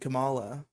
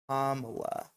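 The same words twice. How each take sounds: First: The start does not sound like comma. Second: The start sounds like the word comma. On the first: The speaker calls it wrong. "I've had this correction levied upon me many a time" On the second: The speaker calls it right. "Make sure you're pronouncing it Kamala, like a like a punctuation symbol"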